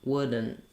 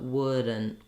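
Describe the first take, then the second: No difference in how they are said.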